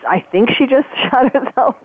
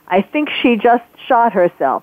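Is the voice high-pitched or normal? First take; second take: high-pitched; normal. First: It is said in a fast, high-pitched voice. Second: It is said in a normal-pitched voice.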